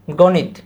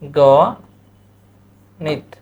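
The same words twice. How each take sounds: First: Said in the usual way. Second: "গণিত" very slow, as go, long pause, nit; syllable-by-syllable demo. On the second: Shown as a demonstration. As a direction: draw "গণিত" apart into two syllables. ("গণিত" খুব ধীরে গো-নিত করে বলা) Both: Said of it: "কি?".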